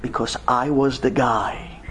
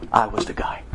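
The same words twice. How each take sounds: First: Said in the usual way. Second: I was the guy, whispered low; hushed reveal. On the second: Real, not acted. Rabbi whispers his secret to the stunned crowd. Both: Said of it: "Do you know how I know this story?".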